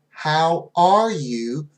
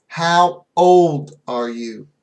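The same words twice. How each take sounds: First: "How are you?" slow, with the stress on "are"; slow clear question. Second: Put-on "How old are you?" slow and louder, with the stress on "old"; slow clear question. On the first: Teacher showing the question students mishear, slow and clear. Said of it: "many students hear". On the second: Teacher showing the question students confuse it with, slow with stress on old. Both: Shown as a demonstration.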